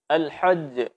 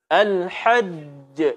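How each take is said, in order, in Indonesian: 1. Huruf j terakhir tidak jelas tanpa pantulan. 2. Huruf j terakhir jelas dengan pantulan. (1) "ini tidak tidak boleh" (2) "mesti dibaca dengan jelas juga dan dipantulkan"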